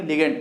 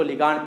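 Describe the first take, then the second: First: लिगेंड with an "e" vowel in the second syllable; preferred pronunciation. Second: लिगांड with a long open "aa" in the second syllable; alternative pronunciation. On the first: Teacher giving students the term to use, लिगेंड with "e", not "aa". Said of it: "क्या बोलेंगे?". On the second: Teacher showing how some people read the term, लिगांड with long "aa". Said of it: "कुछ लोग इसको लिगांड पढ़ते हैं". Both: Shown as a demonstration.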